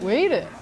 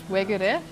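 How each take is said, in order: First: It is said in a thick Daegu dialect accent. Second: It is said in a standard Seoul accent. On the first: "But in Daegu it's like" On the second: "So in Seoul it's"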